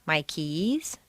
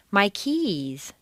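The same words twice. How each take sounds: First: My keys with keys rising at the end; rising tune. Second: My keys with keys stressed and falling; falling tune. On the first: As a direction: lift keys up like a question. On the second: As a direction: let keys drop at the end. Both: Shown as a demonstration.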